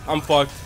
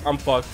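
Both takes have the same delivery.

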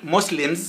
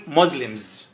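First: Muslims with a hissed S in the middle; wrong pronunciation. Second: Muslims with a buzzed Z in the middle; correct pronunciation. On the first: Teacher showing learners what not to say, Muslims with an S sound. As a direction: say Muslims as MOSS-lims, unvoiced S. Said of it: "لا نقول Muslims". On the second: Teacher modelling for learners, Muslims with a Z sound. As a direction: say Muslims as MOZ-lims. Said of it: "لكن نقول Muslims". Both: Shown as a demonstration.

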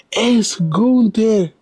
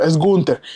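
First: Drawn out very slowly and much higher; stunned reveal. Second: Said in the usual way. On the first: Real, not acted. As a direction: stretch the name out as if you can't believe it. Names the man in shock.

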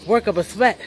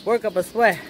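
The two takes are said the same way.

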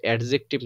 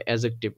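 First: অ্যাডজেক্টিভ with the D sounded before the J; mispronounced with D. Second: অ্যাডজেক্টিভ with the D dropped, as "a-jective"; silent D. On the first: Teacher showing students the wrong reading, অ্যাডজেক্টিভ with D sounded. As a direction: say অ্যাডজেক্টিভ wrongly, voicing a separate D. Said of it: "উচ্চারণটা হবে অ্যাডজেক্টিভ". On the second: Teacher giving students the correct form, অ্যাডজেক্টিভ with silent D. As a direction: say অ্যাডজেক্টিভ with no D before the J. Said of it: "ডি এর উচ্চারণটা আসবে না". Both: Shown as a demonstration.

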